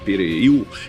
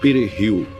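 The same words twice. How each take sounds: First: It is said with a French-Creole-influenced pronunciation. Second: It is said with a Dominican Spanish pronunciation.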